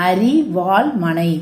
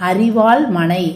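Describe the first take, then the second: Both takes have the same delivery.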